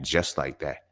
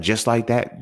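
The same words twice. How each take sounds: First: "Just like that." lower, softer, falling flat; flat answer. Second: "Just like that?" with a rising question tune. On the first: Telling the ex-crush he's done, flat falling answer. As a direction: close it down with a falling tune. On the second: Ex-crush asking if he's really leaving, rising question. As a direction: ask it back, unsure. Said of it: "She was like". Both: Retold or imitated.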